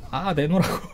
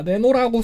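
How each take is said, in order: First: Laughing demand. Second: Said in the usual way. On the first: Real, not acted.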